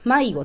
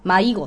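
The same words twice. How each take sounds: First: It uses the standard Japanese pitch accent. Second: It uses the Kansai pattern, high in the middle.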